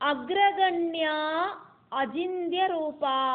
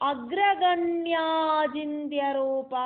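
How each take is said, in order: First: The two names are said as separate words. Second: The two names are run together into one word.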